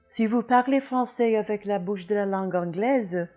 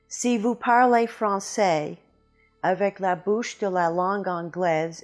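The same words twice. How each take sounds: First: The French is spoken with a native-like French accent. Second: The French is spoken with a strong English accent. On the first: The speaker calls it right. "hopefully would sound a little bit more like this" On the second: The speaker calls it wrong. "with the speech habits of the English language, what I call the Anglo-American mouth"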